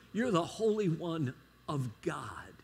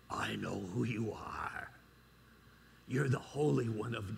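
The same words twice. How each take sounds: First: Said in the usual way. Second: Low growling demon voice, deep and menacing. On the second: Acted. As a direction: play the possessed man's demon, low and dark. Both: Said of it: "this is my best demon voice".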